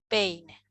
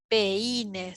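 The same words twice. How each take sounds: First: The two vowels are said in one syllable. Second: The two vowels are split into separate syllables. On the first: The speaker calls it right. "sino decimos peine" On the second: The speaker calls it wrong. "no decimos"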